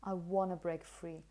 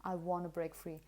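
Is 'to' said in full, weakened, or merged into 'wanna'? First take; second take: wanna; wanna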